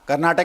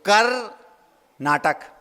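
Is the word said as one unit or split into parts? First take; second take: one unit; split. First: The word is said as one unbroken unit. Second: The word is split with a break after kar. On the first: It names a state. "Karnataka एक प्रांत है" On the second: It means put on a drama. "अब उसको तोड़ेंगे तो"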